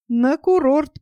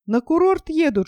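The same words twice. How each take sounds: First: Mocking. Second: Said in the usual way. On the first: A narrator's reading. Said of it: "послышалось насмешливое". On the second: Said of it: "насмешливое".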